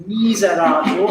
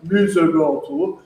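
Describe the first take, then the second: First: "miserator" with bright, forward ee, eh and ah; an open, bright-vowelled miserator; bright vowels. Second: "miserator" with dark, rounded vowels, like muh-zo-raw-tor; a dull, back-vowelled miserator. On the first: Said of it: "quite bright vowels". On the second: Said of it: "and not miserator". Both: Shown as a demonstration.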